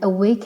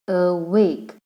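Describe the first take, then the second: First: Said in the usual way. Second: "awake" slowly in two separate syllables; broken into syllables. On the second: Shown as a demonstration. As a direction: split "awake" with a gap after the first syllable. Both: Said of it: "awake has two".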